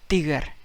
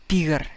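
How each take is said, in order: First: The first t sound is soft. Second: The same.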